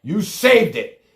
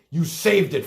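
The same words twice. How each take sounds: First: Louder and higher, every word "You saved it" hammered slowly; slow emphatic accusation. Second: Said in the usual way. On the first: Real, not acted. Angry host to caller Frank, slow hammered "You saved it". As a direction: drag out "saved" like a final accusation.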